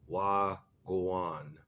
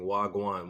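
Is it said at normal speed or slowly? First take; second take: slowly; normal speed. First: It is said slowly. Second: It is said at normal speed.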